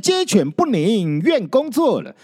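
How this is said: The phrase breaks after the fourth character. The dogs and chickens give no peace. The speaker calls it wrong. "断点不对，不能按照成语来念"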